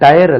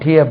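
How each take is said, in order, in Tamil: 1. இந்த சொல் 'tyre' போல ஒலிக்கிறது. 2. இந்த சொல் 'tear' போல ஒலிக்கிறது.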